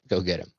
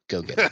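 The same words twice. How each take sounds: First: It is said in a normal voice. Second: It is said in a whisper.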